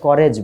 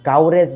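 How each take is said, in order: First: The first vowel is a short 'uh'. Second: The first vowel sounds like 'ow'. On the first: The speaker calls it right. "করেজ বলো" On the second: The speaker calls it wrong. "কাউরেজ না বলে"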